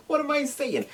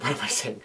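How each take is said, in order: First: Squeaky high-pitched voice; high squeaky repeat. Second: Said in the usual way. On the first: Real, not acted.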